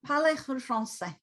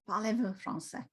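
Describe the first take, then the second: First: French vowels opened at the back; French demo. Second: Softer French phrase, open back vowels; French demo again. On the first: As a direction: show the French sound. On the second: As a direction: demonstrate it softer. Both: Shown as a demonstration. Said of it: "so it's more of a".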